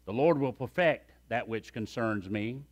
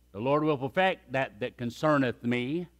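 First: Said in the usual way. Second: Put-on "concerneth" said kən-SER-nəth, old style; old King James wording. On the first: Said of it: "Remember I preached this and I said". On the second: Shown as a demonstration. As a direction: lean into the archaic "concerneth".

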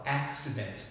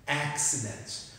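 First: Said in the usual way. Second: "accident" said slowly, every syllable clear; careful pronunciation. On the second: Shown as a demonstration. Teacher modelling how to say "accident", slow and clear. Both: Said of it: "a pronúncia dessa palavra".

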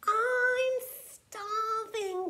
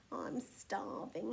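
First: Loud, high, drawn-out grumble; hungry moan, stretched out slowly and pitched up; grumbled complaint. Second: Soft, slow, lowered moan; feeble, drawn-out complaint; moaned weakly. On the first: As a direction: complain loudly, dragging out the words. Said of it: "grumbled Tiny". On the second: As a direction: moan faintly with hunger. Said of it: "he moaned". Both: A narrator's reading.

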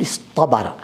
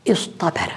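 First: اصطبر with a heavy emphatic ṭa; t turned emphatic. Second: اصطبر with a light t, as "istabara"; original plain t. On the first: Teacher showing students the changed form, اصطبر with emphatic ṭa. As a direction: say اصطبر as "iṣṭabara", ta darkened to ṭa. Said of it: "بالطاء، قلبنا التاء طاء". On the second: Teacher showing the underlying form, اصطبر with plain ta. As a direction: say اصطبر with unemphatic ta after sad. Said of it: "قلبنا التاء طاء". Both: Shown as a demonstration.

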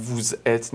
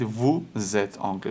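First: "vous êtes" with the z closing the first word, vouz-êtes; wrongly split liaison. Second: "vous êtes anglais" split as vou-zêtes, z starting the second word; correct liaison. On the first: Teacher showing pupils what to avoid, vouz split from êtes. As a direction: break "vous êtes" after the z sound. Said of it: "نگید". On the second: Teacher showing pupils the right liaison, vou zêtes anglais. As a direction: carry the s of "vous êtes" onto êtes as z. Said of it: "میگید". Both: Shown as a demonstration.

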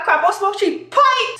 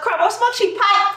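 First: High-pitched, lightly Bajan delivery; slightly Bajan accent. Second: High-pitched Grenadian delivery; Grenadian accent. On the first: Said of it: "Slightly Bayesian". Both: Acted.

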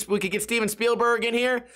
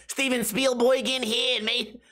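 First: Said in the usual way. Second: High-pitched, badly faked New York accent. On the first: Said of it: "how to do a New York accent". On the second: Cop asking about a camera, bad New York accent. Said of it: "I don't know how to do a New York accent".

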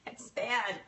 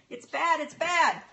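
First: Said in the usual way. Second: Higher and louder, hammed-up wail; mock lament. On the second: Real, not acted. To viewers about her bad connection, a mock wail. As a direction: overplay the complaint for laughs.

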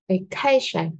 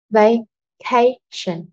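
First: Said in the usual way. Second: "Vacation" very slow, split as va-ca-tion; slow teaching model of "Vacation", each syllable apart. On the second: Shown as a demonstration. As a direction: break "Vacation" into three drawn-out syllables. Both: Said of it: "rõ ràng là âm tiết số hai".

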